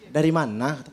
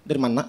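First: The question is said at an ordinary speed. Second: The question is rushed out very quickly. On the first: "normal normal" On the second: "Di sana tuh kalau ngomong rada cepet. Rada cepet bener"

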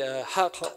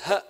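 First: The word ends with a deep back q sound. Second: The word ends with a glottal stop instead. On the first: The speaker calls it right. "one must pronounce the qaf" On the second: The speaker calls it wrong. "pronounces the word truth with a glottal stop"

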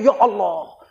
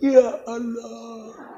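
First: It sounds startled and surprised. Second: It sounds sad and sorrowful.

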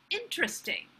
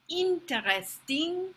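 First: The word is said with an English accent. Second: The word is said with a French accent. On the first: "the pronunciation in English" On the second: "how a French person might say it"

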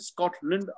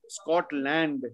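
First: The last syllable is reduced to lund. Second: The last syllable has a full land vowel. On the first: The speaker calls it right. "It's England, Holland, Scotland" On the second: The speaker calls it wrong. "So it's not England, Holland, Scotland"

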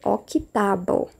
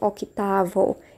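First: The middle consonant is pronounced like a b. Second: The middle consonant is pronounced like a v. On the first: The speaker calls it right. "é octavo" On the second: The speaker calls it wrong. "e não octavo"

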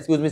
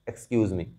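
First: It is said fairly loudly, in full voice. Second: It is said softly, in a low voice. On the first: Getting someone's attention. "Normal थोड़ा तेज में बोलना है" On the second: Politely passing by without disturbing people. "हल्के से बोलोगे"

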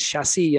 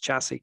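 First: The word is said with a French pronunciation. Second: The word is said with an English pronunciation. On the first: This is the original form of the word. "it started as chassis" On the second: This is the form the word took once borrowed. "now it's been incorporated into English as chassis"

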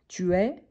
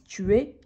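First: The final vowel is said more open. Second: The final vowel is said more closed. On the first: This is how most people say it. "la plupart des temps, les gens prononcent un peu plus ouvert" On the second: This is how some people with a particular accent say it. "certaines personnes qui ont un accent plus fermé"

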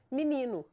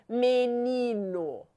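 First: It is pronounced casually, the way people speak. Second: It is pronounced carefully, exactly as written. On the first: "Direto diz menino" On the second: "ninguém fala menino"

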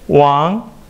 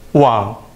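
First: The pitch rises from mid to high. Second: The pitch dips low then rises.

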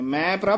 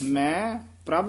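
First: The first word is said plainly, without emphasis. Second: The first word is said with added emphasis. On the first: The speaker calls it wrong. "ਮੈਂ ਪ੍ਰਭ ਨਹੀਂ ਕਹਿ ਦੇਣਾ" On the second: The speaker calls it right. "ਮੈਂ ਇੱਥੇ ਯਮਕ ਲਾ ਦੇਣੀ ਹੈ"

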